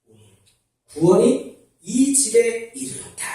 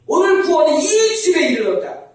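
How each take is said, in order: First: Said in the usual way. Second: 오늘 구원이 이 집에 이르렀다 said much higher and louder, falling at the end; loud proclamation. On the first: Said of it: "repeated proclamation". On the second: Shown as a demonstration. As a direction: proclaim it like a preacher at full force. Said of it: "아멘?". (크게 선포하듯)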